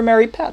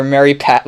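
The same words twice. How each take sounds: First: High pushy salesman voice on Mary Pat; Ned Ryerson. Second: Said in the usual way. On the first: Retold or imitated. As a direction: say Mary Pat like an overeager classmate. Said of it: "Ned the head". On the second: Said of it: "I like Mary Pat".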